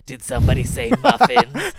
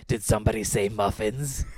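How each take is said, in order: First: Put-on much higher and louder, croaky old hag voice; hag grandma. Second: Infomercial grandma voice. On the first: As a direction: cackle it out like a gleeful old crone. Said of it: "hag grandma". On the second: Retold or imitated. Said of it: "a reference to the Magic Bullet infomercial".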